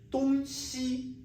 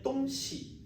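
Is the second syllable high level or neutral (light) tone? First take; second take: high level; neutral. First: The second syllable has a high level tone. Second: The second syllable is light and unstressed. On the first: It means east and west. "西 is 音频" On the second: It means a thing or things. "喜 softly. It is 轻声"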